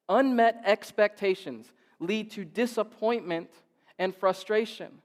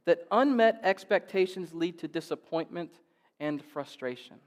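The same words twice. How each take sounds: First: Unmet expectations said slower and louder, each word leaned on; slow down and hammer Unmet expectations; emphatic slow repeat. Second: Said in the usual way. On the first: Shown as a demonstration. Preacher repeating Unmet expectations to the congregation, slow and emphatic. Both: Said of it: "repeats the line".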